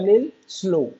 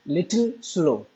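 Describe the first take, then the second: First: 'Little' is shortened to one syllable, 'lil'. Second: 'Little' is said in full with two syllables.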